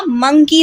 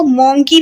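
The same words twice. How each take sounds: First: मंकी with a short "MUN" vowel; teacher's model of मंकी, short uh in the first syllable; correct monkey pronunciation. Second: मोंकी with a round "MON" vowel; demonstrating the mistaken o vowel in मोंकी; mispronounced monkey. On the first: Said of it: "मंकी होता है". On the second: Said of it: "तो मोंकी नहीं होता". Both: Shown as a demonstration.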